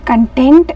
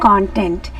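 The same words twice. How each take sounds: First: The stress is on the second syllable. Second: The stress is on the first syllable. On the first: It means a feeling of happiness. "it's about a feeling of happiness" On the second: It means the material in something. "that is absolutely wrong. It's content"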